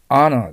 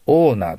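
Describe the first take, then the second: First: The first vowel is an open 'ah' sound. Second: The first vowel is a long 'oh' sound. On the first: It means honor. The speaker calls it right. "H-O の発音はどちらかといえば、O よりもアに近い方の発音ですね。" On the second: It means owner. The speaker calls it wrong. "オーナーと言ってしまいます。違います。"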